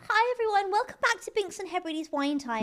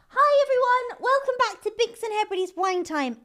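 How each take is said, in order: First: It sounds tearful, as if about to cry. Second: It sounds cheerful, with no hint of crying.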